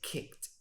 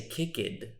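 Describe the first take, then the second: First: The ending is a short 't' sound. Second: The ending is an extra 'id' syllable. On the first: The speaker calls it right. "I say kicked" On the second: The speaker calls it wrong. "I do not say kicked"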